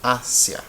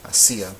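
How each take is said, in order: First: "Asia" as AH-sya, first syllable punched; stress on first syllable. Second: Last "Asia" as a-SEEE-a, slow, middle syllable drawn out; stress on the í. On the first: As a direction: hit the opening A of "Asia", then a quick sya glide. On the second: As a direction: stretch and punch SI in "Asia", three separate syllables. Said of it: "we want to say". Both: Shown as a demonstration.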